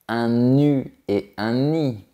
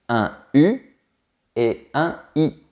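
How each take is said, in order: First: A linking consonant joins the words. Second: The words are said without a linking consonant. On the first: The speaker calls it wrong. "on ne dit pas" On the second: The speaker calls it right. "On dit"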